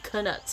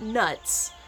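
First: The K at the start is pronounced. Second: The K at the start is silent. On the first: The speaker calls it right. "The K is not silent" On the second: The speaker calls it wrong. "It's not nuts"

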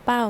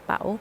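First: The syllable is said with a falling tone. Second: The syllable is said with a rising tone. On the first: "ไม่โท" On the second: "ไม่จัตวา"

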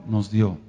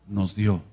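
No difference in how they are said.

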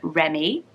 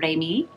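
First: It is said with an English pronunciation. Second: It is said with a French pronunciation.

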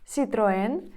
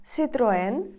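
Both takes have the same delivery.

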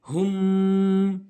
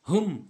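First: The final m is held nasally for longer. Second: The final m is cut off quickly. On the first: The speaker calls it right. "হুম একটু নাকের ভিতরে ধরে রাখতে হবে, গুন্না করতে হবে।" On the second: The speaker calls it wrong. "এভাবে দ্রুত বলা যাবে না।"

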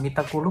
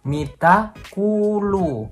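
First: The doubled vowels are said short. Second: The doubled vowels are held long. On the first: The speaker calls it wrong. "kalau kita cuma bilang mita kulu, mereka nggak akan paham" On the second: The speaker calls it right. "bener-bener harus agak sedikit panjang"

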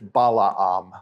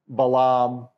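First: Both middle vowels are sounded separately. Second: The two middle vowels merge into one. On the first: The speaker calls it right. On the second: The speaker calls it wrong.

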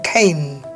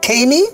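First: The word ends on the N sound. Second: The final E is sounded as an extra vowel. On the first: The speaker calls it right. "So E is silent here" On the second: The speaker calls it wrong. "Caney or cane?"

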